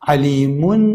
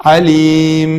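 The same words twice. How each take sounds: First: عەلیمون with its final -un fully sounded; tanween pronounced. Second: عەلیم held and closed on m; pausal stop, tanween dropped. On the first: Teacher giving students the word before stopping, عەلیمون with sounded n. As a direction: say عەلیمون ending in a clear n. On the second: Teacher showing how to stop on it, عەلیم ending on m. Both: Shown as a demonstration. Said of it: "لەسەری ڕاوەسن".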